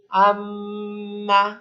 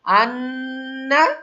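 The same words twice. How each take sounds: First: Very slow আম্মা with the m hummed long; slow আম্মা, the mm sustained; held ghunna on m. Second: Very slow আন্না with the n hummed long and rising; loud, slow আন্না, the nn sustained; held ghunna on n. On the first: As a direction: hum the doubled m on closed lips. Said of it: "আর মিম দিয়ে আম্মা". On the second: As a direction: hold the doubled n through the nose, slowly. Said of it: "কি মনে রাখবেন?". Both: Shown as a demonstration.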